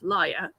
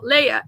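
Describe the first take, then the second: First: The name begins with a 'lie' sound. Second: The name begins with a 'lay' sound. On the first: The speaker calls it right. "It's Laia" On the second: The speaker calls it wrong. "it's actually not Leia"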